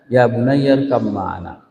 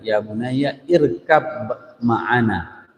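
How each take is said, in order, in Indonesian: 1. Huruf b melebur menjadi m, diucapkan pelan. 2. Huruf b tetap dibaca, diucapkan jelas. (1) "bunyi bacaannya itu ya sangat lemah dan sangat di apa nama lembut" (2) "kalau kita baca biasanya"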